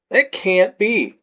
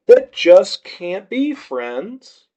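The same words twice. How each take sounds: First: Slow, slurred disbelief; slurring drunk. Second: Slow, slurred but pushed harder, rising at the end; drunkenly insist, words dragging; slurring, insistent. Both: A narrator's reading. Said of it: "my words slurring some".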